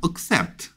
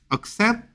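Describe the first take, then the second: First: "accept" with a clear "ek" first vowel; discouraged pronunciation of accept. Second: "accept" with a reduced "uk" first vowel; preferred pronunciation of accept. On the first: Teacher shows the less preferred form, "accept" as "ek-sept". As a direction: open "accept" with an "ek" sound. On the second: Teacher corrects students' vowel, "accept" as "uk-sept". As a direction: begin "accept" on a weak schwa. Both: Shown as a demonstration. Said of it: "accept보단 accept".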